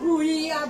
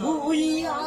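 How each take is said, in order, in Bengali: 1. প্রথম সিলেবলে একটি গোলাকার 'u' স্বরধ্বনি আছে। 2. প্রথম সিলেবলে একটি গোলাকার 'u' স্বরধ্বনি আছে।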